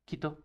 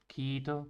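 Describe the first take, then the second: First: The i is short and the t is doubled. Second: The i is held long before the t. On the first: The speaker calls it right. "you need to say Kito" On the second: The speaker calls it wrong. "instead of Kito because there is no long I"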